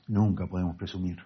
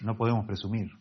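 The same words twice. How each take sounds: First: Weight on "nunca", the rest quieter; stress on nunca. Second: Said in the usual way. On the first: Shown as a demonstration. Preacher to congregation, stressing "nunca" firmly. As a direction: lean into "nunca" to correct yourself.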